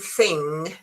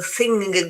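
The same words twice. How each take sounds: First: The word ends in a plain ng sound. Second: The word ends with a strong added g sound. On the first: The speaker calls it right. "instead of saying thing" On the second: The speaker calls it wrong. "they go thing, which is very, very difficult, uh, with the sound, very, very um, uh, pronounced sound of uh, g"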